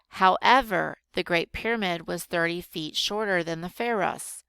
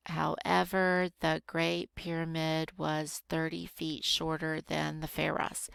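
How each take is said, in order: First: Said in the usual way. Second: Measured, even teacher's rereading. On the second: Shown as a demonstration. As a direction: reread it carefully, word by word. Rereads sentence slowly to find prepositions.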